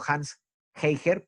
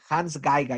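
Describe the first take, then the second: First: The surname begins with a soft, breathy H-like sound. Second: The surname begins with a hard G sound. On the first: The speaker calls it wrong. "yo siempre digo Hans Heiger" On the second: The speaker calls it right. "tienes toda la razón"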